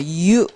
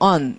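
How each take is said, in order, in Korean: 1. 이 음절은 'you'처럼 발음해요. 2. 이 음절은 'un'처럼 발음해요. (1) "you 이렇게 읽어야 돼요" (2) "언 이렇게 발음하면 이거 부정이란 얘기죠"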